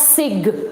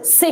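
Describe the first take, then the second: First: The syllable ends in a hard 'g' sound. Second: The syllable ends in a soft 'sh' sound. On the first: The speaker calls it wrong. "It is not sig" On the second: The speaker calls it right. "it is sish"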